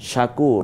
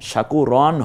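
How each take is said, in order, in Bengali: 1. শব্দটি 'r' ধ্বনিতেই পরিষ্কারভাবে শেষ হয়। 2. শব্দটির শেষে একটি যোগ করা '-an' ধ্বনি আছে। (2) "শাকুরন হবে না"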